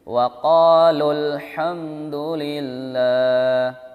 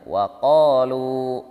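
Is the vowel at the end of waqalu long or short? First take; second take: short; long. First: The final vowel is short and runs into the next word. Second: The final vowel is long before a full stop. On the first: The reading continues without stopping. "Kalau kita baca sambung, maka dibaca waqalul hamdulillah, langsung lul" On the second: The reading stops at this word. "Tapi kalau seandainya berhenti dibaca panjang"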